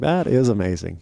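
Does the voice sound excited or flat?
excited. It is said with lively, excited enthusiasm.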